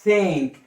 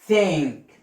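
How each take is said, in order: No difference in how they are said.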